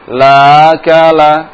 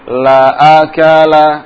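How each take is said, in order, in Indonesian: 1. Hamza dilunakkan dan diringankan. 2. Hamza diucapkan penuh dan jelas. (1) "Atau ditashil" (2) "anak baca yang pertama yang benar"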